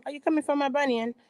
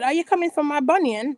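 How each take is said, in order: First: Rattled off fast and falling; quick mock Ashley repeat. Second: Mock-indignant question rising at the end, a bit higher; mock Ashley retort. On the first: Ashley repeating her jab, fast and dropping. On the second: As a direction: tease like Ashley accusing Karen. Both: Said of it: "Ashley said".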